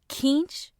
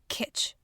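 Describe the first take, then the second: First: The word has an N sound and a long vowel. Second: The word has no N sound and a short vowel. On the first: "I say keench. So funny enough, it's stretched out" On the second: "the same as kitsch without the N sound"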